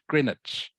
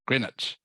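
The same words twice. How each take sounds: First: Said like 'gren-itch', with the w silent. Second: Said like 'gren-itch', with the w silent.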